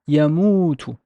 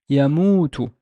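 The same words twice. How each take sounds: The two takes are said the same way.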